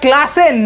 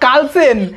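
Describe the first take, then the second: First: The name begins with a 'kla' sound. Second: The name begins with a 'kal' sound. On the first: The speaker calls it right. "ওটা ক্লাসেন" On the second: The speaker calls it wrong. "Not কালসেন"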